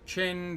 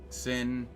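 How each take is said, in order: First: The name begins with a ch sound. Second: The name begins with an s sound. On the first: "that can be pronounced multiple ways" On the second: "that can be pronounced multiple ways"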